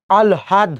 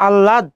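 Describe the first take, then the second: First: আলহাদ as "al-had", l before a sounded h; taught pronunciation. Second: আহ্লাদ as "allad" with a long l and silent h; common pronunciation. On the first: Teacher correcting the students' allad, taught pronunciation. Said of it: "প্রথমে ল উচ্চারণ করব". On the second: Teacher quizzing students on their usual way, common pronunciation. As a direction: drop the h in আহ্লাদ, double the l. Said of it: "কি উচ্চারণ করেন". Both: Shown as a demonstration.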